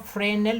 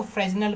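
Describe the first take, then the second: First: फ्रेनल said with no S sound; silent S. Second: फ्रेजनल with a Z sound before the N; S pronounced as Z. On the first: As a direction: drop the S in फ्रेनल. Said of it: "S silent". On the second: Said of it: "कुछ लोग उसको फ्रेजनल भी कहते हैं". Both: Shown as a demonstration.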